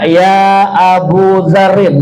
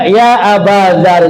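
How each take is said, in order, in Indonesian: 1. Kata pertama dari nama itu berakhir dengan u. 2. Kata pertama dari nama itu berakhir dengan a. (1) "Nggak boleh dibaca ya Abu Dzarrin" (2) "Mesti dibaca ya Aba Dzarrin"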